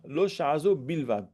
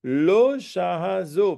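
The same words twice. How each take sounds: First: Said in the usual way. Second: High, slow, loud chant of Lo shahazo; study-hall chant of "Lo shahazo"; slow emphatic text reading. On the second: Shown as a demonstration.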